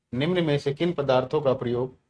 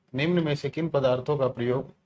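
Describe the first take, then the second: The two takes are said the same way.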